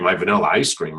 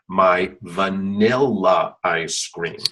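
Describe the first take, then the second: First: The words are run together quickly. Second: The words are said slowly and separately. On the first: "I run all of my words together" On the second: "there's nothing improper with saying"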